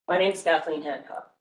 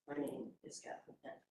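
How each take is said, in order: First: It is said clearly and confidently. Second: It is said meekly, with eyes looking down.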